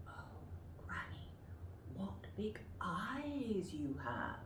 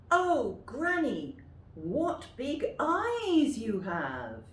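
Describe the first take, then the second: First: Whispered. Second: High, slow and loud. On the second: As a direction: call out like an amazed little girl. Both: Shown as a demonstration. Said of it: "practice them yourself".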